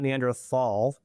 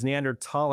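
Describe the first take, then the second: First: The ending starts with a th sound. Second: The ending starts with a plain t sound. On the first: The speaker calls it wrong. "not Neanderthal" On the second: The speaker calls it right. "that's why it's Neanderthal"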